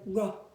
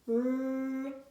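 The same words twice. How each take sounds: First: The consonant is followed by a short vowel. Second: The consonant is said alone without a vowel. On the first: The speaker calls it wrong. "rather than r" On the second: The speaker calls it right. "or r"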